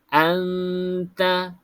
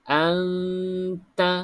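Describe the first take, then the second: No difference in how they are said.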